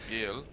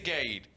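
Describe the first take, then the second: First: The name is said without rhyming with trade. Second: The name is said to rhyme with trade. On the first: The speaker calls it right. "it doesn't really have the same ring" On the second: The speaker calls it wrong. "That's not how you say it. I know, but it rhymes"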